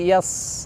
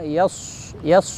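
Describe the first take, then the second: First: The s sound is made thin, like whistling. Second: The s sound is made with rounded lips. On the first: "dengan ditipiskan" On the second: "dengan monyong ataupun membulat"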